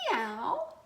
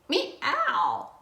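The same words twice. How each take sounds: First: It is said softly and politely. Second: It is said loudly and forcefully.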